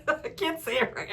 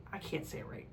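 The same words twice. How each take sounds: First: Laughing through "I can't say it right", higher. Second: Softly muttered, nearly whispered "I can't say it right"; muttered aside. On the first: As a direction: giggle at your own stumble. Laughing at her own mispronunciation. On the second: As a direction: mumble it to yourself, embarrassed. Fumbling the word naivety. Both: Real, not acted.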